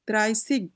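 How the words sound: The ending is said with an s and hard g. "কোন কোন অঞ্চলে এটাকে সিগও বলে"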